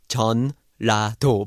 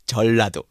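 First: The middle has an N sound before the L. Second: The middle has a long double L sound. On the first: The speaker calls it wrong. "is actually spelled Jeon-la-do" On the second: The speaker calls it right. "but it's Jeollado"

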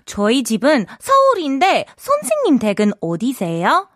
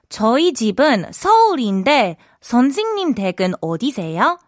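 First: The sentence is said fast. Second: The sentence is said slowly.

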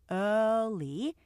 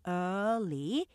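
No difference in how they are said.

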